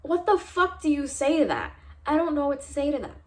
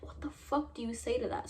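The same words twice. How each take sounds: First: Outraged question. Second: Much softer, in disbelief; stunned aside. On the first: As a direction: throw it out in outrage. Outraged at professor. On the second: Shocked by the professor's remark, asks viewers softly in disbelief. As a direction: mutter it, still shocked. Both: Real, not acted.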